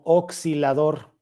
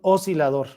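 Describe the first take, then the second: First: The middle s sound is doubled. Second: The middle s sound is single. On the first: The speaker calls it wrong. "Eso es incorrecto" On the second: The speaker calls it right. "así, como si tuviera una S nada más"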